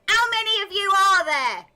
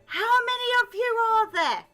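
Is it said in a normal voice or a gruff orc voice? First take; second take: orc voice; normal voice. First: It is said in a gruff, intimidating orc voice. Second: It is said in a normal voice.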